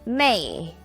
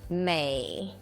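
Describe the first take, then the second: First: The pitch falls sharply from high to low. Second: The pitch dips low, then rises.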